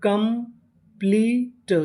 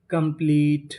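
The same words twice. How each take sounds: First: complete very slowly broken into parts; syllable by syllable. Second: Said in the usual way. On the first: Shown as a demonstration. Teacher assembles a word for learners, complete slowly syllable by syllable. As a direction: draw out complete piece by piece. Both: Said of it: "तो meaning बनी".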